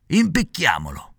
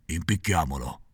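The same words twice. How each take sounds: First: Slow, higher gleeful proposal; first assassin's voice. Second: Impicchiamolo much lower and softer, falling; a low muttered echo; echoing second assassin. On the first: Assassin proposing to hang the puppet, slow and higher. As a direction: savor the word Impicchiamolo slowly. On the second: Second assassin repeating, low and soft. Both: A narrator's reading. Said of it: "ripeté l'altro".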